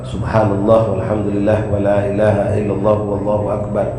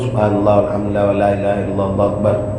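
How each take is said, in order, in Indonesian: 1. Diucapkan dengan hati-hati, setiap bunyi terdengar jelas. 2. Diucapkan terburu-buru, dengan beberapa bunyi tertelan. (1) "kita bacanya yang benar" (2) "Haknya hilang. Allah tu tak terdengar"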